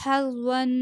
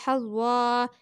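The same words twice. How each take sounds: First: Said in the usual way. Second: हज़्वा ending on a long open aa, no final n; हज़्वा with "wan" turned into "waa"; pausal ending. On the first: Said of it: "वक्फ करेंगे". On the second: Shown as a demonstration. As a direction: stop on हज़्वा, drawing out the last vowel. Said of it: "इसे पढ़ेंगे हज़्वा".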